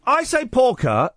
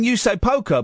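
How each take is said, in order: First: "porker" with an AW vowel in the first syllable; pronounced PORKER. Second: "poker" with a long OH vowel; pronounced POKER. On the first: Host correcting caller's word, "porker" with an AW vowel. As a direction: say "porker" high, as PAW-kuh. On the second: Host showing what caller said, "poker" with an OH vowel. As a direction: say "poker" as POH-kuh, pointedly. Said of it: "then you say poker". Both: Shown as a demonstration.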